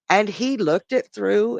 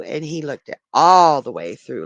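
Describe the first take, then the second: First: Said in the usual way. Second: All punched out, louder; stress on all. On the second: Real, not acted. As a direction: lean hard into the word all.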